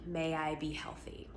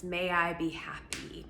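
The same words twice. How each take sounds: First: Soft whispered wish; a hushed wish to yourself. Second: Said in the usual way. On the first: Shown as a demonstration. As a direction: breathe the phrase as a whisper. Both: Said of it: "So for instance".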